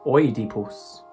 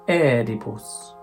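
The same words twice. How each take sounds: First: It is said with the classical Latin pronunciation. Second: It is said with the ecclesiastical Latin pronunciation.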